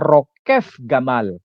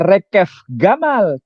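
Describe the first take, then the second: First: The first word has an 'o' vowel first. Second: The first word has an 'e' vowel first. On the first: The speaker calls it right. "tapi dibaca rokef gamal" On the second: The speaker calls it wrong. "bukan dibaca rekef gamal"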